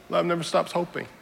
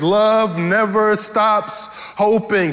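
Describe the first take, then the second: First: Softer, quiet echo of the refrain. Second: Slow, deliberate preaching refrain. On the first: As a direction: let it fall back to a hush. Refrain repeated softly. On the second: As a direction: lay each word down slowly for the church. Preacher repeats refrain slowly. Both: Acted.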